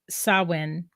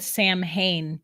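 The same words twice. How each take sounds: First: The word is said with its traditional pronunciation. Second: The word is sounded out literally, letter by letter. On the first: The speaker calls it right. "It's Samhain" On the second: The speaker calls it wrong. "it's spelled Samhain, but that's not how you say it"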